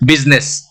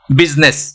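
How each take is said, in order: No difference in how they are said.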